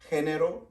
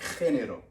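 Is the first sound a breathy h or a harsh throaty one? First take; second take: breathy h; throaty. First: The first sound is a light, breathy h. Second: The first sound is a harsh, throaty rasp. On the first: This is how it sounds in South America. "it sounds more like a H sound, specifically if you're from um, South America" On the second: This is how it sounds in Spain. "in Spain, it would be more like a phlegm to it"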